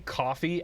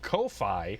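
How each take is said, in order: First: It sounds just like the drink coffee. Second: It sounds different from the drink coffee. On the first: The speaker calls it right. "it is probably coffee" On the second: The speaker calls it wrong. "that's a weird way of pronouncing that service"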